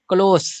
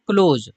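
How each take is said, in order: First: क्लोज said as "klos", ending on a sharp hissed s; close with s. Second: क्लोज said as "kloz", ending on a buzzing z sound; voiced close. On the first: Teacher showing students the other reading, ending in s. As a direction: end क्लोज on a clean unvoiced s, as in near. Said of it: "सो का आवाज निकल रहा है". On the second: Teacher showing students how to say the verb, voiced z. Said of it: "इसको पढ़ा जा रहा है क्लोज". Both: Shown as a demonstration.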